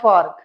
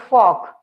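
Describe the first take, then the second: First: The r sound is clearly pronounced. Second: The r sound is not pronounced. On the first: The speaker calls it wrong. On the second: The speaker calls it right. "R is silent here"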